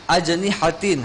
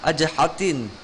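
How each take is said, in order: First: The n sound is clearly pronounced. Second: The n sound is dropped. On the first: The speaker calls it right. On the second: The speaker calls it wrong. "jadi nunnya hilang"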